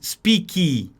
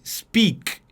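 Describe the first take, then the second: First: The final k is released with a vowel sound. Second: The final k is cut short with no vowel. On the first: The speaker calls it wrong. "Você não diz speak" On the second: The speaker calls it right. "você corta o som de ki no final"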